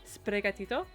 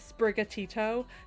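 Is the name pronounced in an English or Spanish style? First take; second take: Spanish; English. First: The name is pronounced in a Spanish style. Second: The name is pronounced in a plain English style. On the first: The speaker calls it right. "this gen is Spanish influenced, so I feel like I should say it that way" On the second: The speaker calls it wrong. "I feel really stupid saying Sprigatito"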